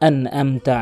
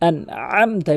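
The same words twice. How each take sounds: First: The middle throat sound is weak. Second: The middle throat sound is pressed strongly. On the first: The speaker calls it wrong. "মানে এই আইনের উচ্চারণ" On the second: The speaker calls it right. "এভাবে চাপ দিয়ে উচ্চারণ করবেন"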